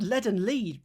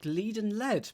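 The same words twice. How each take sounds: First: "lead and lead" said as LED, then LEED; first "lead" rhymes with bed, second "lead" with need; two readings of lead. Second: "lead and lead" said as LEED, then LED; first "lead" rhymes with need, second "lead" with bed; lead readings swapped. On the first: Streamer sorting out crossword homographs, "lead and lead" as led and leed. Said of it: "tick and tick, lead and lead". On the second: Streamer playing on crossword homographs, "lead and lead" as leed and led. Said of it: "We got lead and lead". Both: Shown as a demonstration.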